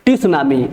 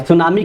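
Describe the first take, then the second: First: "टी सुनामी" with the letter T voiced as a separate "tee" in front; T wrongly sounded. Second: "सुनामी" starting straight on the S, no T; silent T. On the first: Teacher warning students how not to say it, "टी सुनामी" with T sounded. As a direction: say "टी सुनामी", adding a spoken "tee" before su-naa-mi. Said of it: "ऐसा मत कहिएगा". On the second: Teacher showing students the correct form, "सुनामी" with T left silent. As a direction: say "सुनामी" as su-naa-mi, dropping the T. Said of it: "टी silent है, टी को छोड़ दिया जाता है". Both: Shown as a demonstration.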